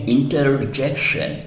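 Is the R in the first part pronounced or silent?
pronounced. The R sound after inter is clearly pronounced.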